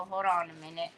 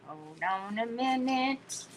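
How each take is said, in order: First: 1 quick hold on. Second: 1 slow hold on. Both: Shown as a demonstration. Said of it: "I don't like cutting words off".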